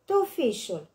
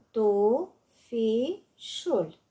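First: Said in the usual way. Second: "Tufișul" slowly separated, tu-fi-șul; syllable by syllable. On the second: Shown as a demonstration. („Tufișul” rostit rar, pe silabe: tu-fi-șul) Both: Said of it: "Desparte în silabe cuvintele date".

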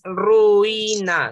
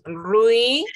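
First: "ruina" in three slow beats, ru-i-na; syllabify "ruina" as ru, i, na, stretched out; wrongly split diphthong. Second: "ruina" in two slow beats, rui-na; syllabify "ruina" as rui... na; joined diphthong. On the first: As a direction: pull U and I apart in "ruina". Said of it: "No es ruina". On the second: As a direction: glide U into I in "ruina", pause, then na. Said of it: "no se pueden separar tampoco". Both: Shown as a demonstration.

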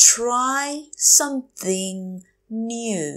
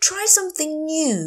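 First: Try, something, new, drawn out with gaps; slow teacher model of "Try something new"; word by word. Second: Said in the usual way. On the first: Shown as a demonstration. Teacher repeats phrase word by word.

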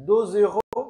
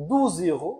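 First: "দুজ ইউরো" as deux euros, eu plus z liaison; rounded eu in "দুজ", linked by z; French two euros. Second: "দুজ ইউরো" as douze euros, oo vowel; French twelve euros. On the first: Teacher contrasting two euros, "দুজ" with eu vowel. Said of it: "অনেকে যখন বলেন দুই ইউরো". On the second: Teacher contrasting twelve euros, "দুজ" with oo vowel. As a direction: clear oo in "দুজ", then z. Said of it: "আবার যখন বলি বারো ইউরো". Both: Shown as a demonstration.

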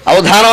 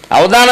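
First: అవధానం with a breathy, aspirated dha; correct aspiration. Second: అవధానమే said with plain unaspirated d; mock అవధానమే, no breath on the dha; missing aspiration. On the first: Shown as a demonstration. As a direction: model అవధానం with full breath on ధా. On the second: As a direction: imitate saying avadaaname for అవధానమే. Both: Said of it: "అవధానం అనలేరు".

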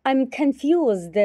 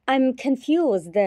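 Both takes have the same delivery.

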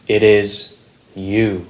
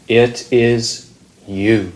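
No difference in how they are said.

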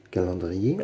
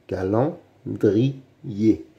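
First: Said in the usual way. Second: "calendrier" very slowly, split by pauses; syllable by syllable. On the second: Shown as a demonstration. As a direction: sound out "calendrier" beat by beat. Teacher splits word into syllables. (« calendrier » très lentement, syllabe par syllabe)

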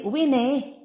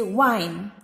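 First: "wine" misread as two syllables, wee-nay; "wine" said letter by letter as wi-neh; wrong pronunciation. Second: "wine" as one syllable with a long i; a drawn-out "wine", rhyming with line; correct pronunciation. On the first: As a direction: sound the final e of "wine" as a separate -ay. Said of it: "you don't say wine". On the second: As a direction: say "wine" slowly, final e silent. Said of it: "you say wine". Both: Shown as a demonstration.

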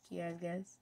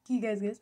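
First: Teasing question. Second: Said in the usual way. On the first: Shown as a demonstration.

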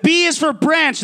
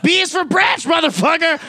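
First: A hint of a stern dad, mild; lightly voiced threatening father, not yet yelling; imitating dad. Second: Higher, shouted threat with a laugh at the end; mock dad shout. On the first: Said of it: "And he'd be like". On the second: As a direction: bellow it like a dad grabbing the branch. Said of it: "He's like".

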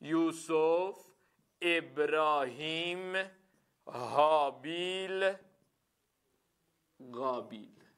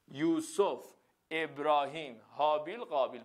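First: Names drawn out slowly while writing; writing names on the board, slowly; slow dictation. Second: Said in the usual way. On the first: Shown as a demonstration. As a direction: say each name slowly as you write it.

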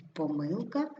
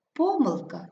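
First: ПоМИЛка, stressed МИЛ, rising at end; stress on second syllable. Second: ПОмилка, stressed ПО then fall; stress on first syllable. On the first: Teacher showing double stress, stress on МИЛ. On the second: Teacher showing double stress, stress on ПО. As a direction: hit ПО in помилка. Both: Shown as a demonstration. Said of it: "слова із подвійним наголосом".

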